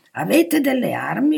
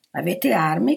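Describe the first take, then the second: First: Louder, high-pitched insistent question; interrupting. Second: Abrupt question, only mildly raised; sudden question. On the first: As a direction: cut in and press for an answer. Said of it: "lo interruppe il duca". (domanda insistente che interrompe, a voce alta) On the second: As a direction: ask out of the blue, fairly measured. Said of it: "chiese il duca a un tratto". (domanda improvvisa ma contenuta) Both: A narrator's reading.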